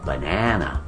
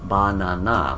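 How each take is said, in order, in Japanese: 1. 真ん中の音節が、ほかより大きい。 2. 三つの音節は全部同じ大きさ。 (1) "英語の方はバナナ、小さい大きい小さい" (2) "日本語でバナナでしょ、サイズが一緒"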